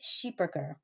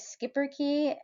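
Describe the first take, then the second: First: It is given a native Flemish pronunciation. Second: It is given an Americanized pronunciation. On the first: The speaker calls it right. "correct pronunciation is Schipperke" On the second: The speaker calls it wrong. "many Americans say Schipperke"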